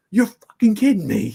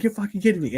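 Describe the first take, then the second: First: High, loud, outraged yell; imitating dad's loud disbelieving curse; Grumpy's outburst. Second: High-pitched disbelieving curse at normal volume; a lighter retake of dad's outraged line; Grumpy's way. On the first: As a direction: blurt it out like the grumpy dad hearing bad news. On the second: Retold or imitated. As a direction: son mimicking the dad's typical reaction, high and incredulous. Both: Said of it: "in this typical Grumpy way".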